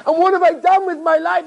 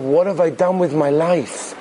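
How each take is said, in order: First: Much higher, impassioned question; acted cry of self-reproach; anguished outcry. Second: Slow, weighty question to oneself; acted soul-searching, drawn out; anguished self-questioning. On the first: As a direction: wail the question out in regret. Acted rabbi repeats the question, anguished. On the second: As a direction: ask it slowly, in restrained anguish.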